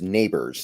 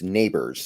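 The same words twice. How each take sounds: First: The name sounds like the word 'neighbor'. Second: The same.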